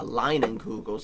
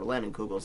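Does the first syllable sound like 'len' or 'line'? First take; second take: line; len. First: The first syllable sounds like 'line'. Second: The first syllable sounds like 'len'.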